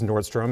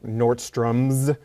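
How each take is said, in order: First: The name ends without an added s sound. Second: The name ends with an added s sound. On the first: The speaker calls it right. "it's actually Nordstrom" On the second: The speaker calls it wrong. "certain stores that people call like Nordstrom's"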